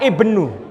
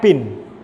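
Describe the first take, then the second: First: It is said with an initial vowel, ibnu. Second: It is said as one short syllable, bin. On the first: The speaker calls it right. "tapi dibaca ibnu" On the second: The speaker calls it wrong. "saya dulu didukani dosen saya karena saya bacanya bin"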